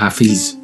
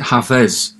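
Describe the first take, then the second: First: The second vowel sounds like 'i' in sit. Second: The second vowel sounds like 'e' in bed. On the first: The speaker calls it wrong. "not Hafiz, as I sometimes mistakenly say it" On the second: The speaker calls it right. "you pronounce it Hafez"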